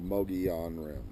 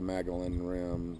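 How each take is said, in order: First: The first word sounds like neither Mongolian nor Magellan. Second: The first word sounds like the name Magellan. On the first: The speaker calls it right. "It's the Mogollon Rim" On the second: The speaker calls it wrong. "not the Magellan Rim"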